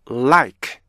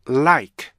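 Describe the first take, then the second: No difference in how they are said.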